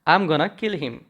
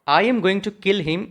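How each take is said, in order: First: "Going to" is reduced to "gonna". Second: "Going to" is said in full. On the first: The speaker calls it right. "It sounds very nice" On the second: The speaker calls it wrong. "उससे better ये आपका सुनने में लग रहा है"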